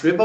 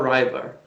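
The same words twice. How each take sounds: First: "river" with a short i, as in "give"; first vowel of "river" short, like "sit"; short-i pronunciation. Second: "river" rhyming with "driver"; first vowel of "river" like the word "eye"; long-i pronunciation. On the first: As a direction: say "river" as RIV-er. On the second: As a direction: say "river" as RYE-ver. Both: Shown as a demonstration. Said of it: "is it pronounced river or river".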